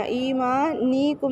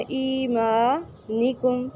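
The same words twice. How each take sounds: First: ایمانکم with the ni syllable stretched, shown as a mistake; wrong ایمانکم. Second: ایمانکم very slow, with the ee held one alif and the ni kept short; correct ایمانکم. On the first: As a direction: drag out the ni in ایمانکم as the error. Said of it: "ایمانکم نہیں پڑھنا". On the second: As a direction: recite ایمانکم slowly, lengthening only the madd. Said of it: "اسے ایک الف کے برابر لمبا کریں گے". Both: Shown as a demonstration.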